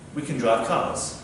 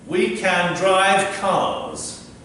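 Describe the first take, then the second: First: It is said fast, with a reduced can. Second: It is said slowly, with a full can.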